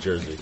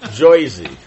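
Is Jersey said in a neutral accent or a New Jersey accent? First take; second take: neutral; New Jersey. First: The word is said in a plain, neutral accent. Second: The word is said in a New Jersey accent. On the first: The speaker calls it wrong. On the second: The speaker calls it right.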